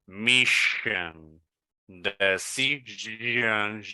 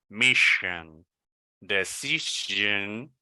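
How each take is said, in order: Both takes have the same delivery.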